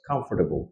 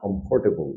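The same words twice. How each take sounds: First: The middle r sound is dropped. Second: The middle r sound is pronounced. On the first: The speaker calls it right. "মাঝখানের আর টা নাই হয়ে যাবে" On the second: The speaker calls it wrong. "It's not comfortable"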